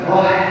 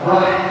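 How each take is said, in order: First: The final h is strongly breathy and audible. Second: The final h is strongly breathy and audible.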